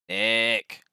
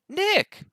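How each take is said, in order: First: It is called out with little excitement. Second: It is called out with more excitement.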